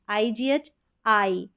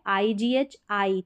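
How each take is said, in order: Both takes have the same delivery.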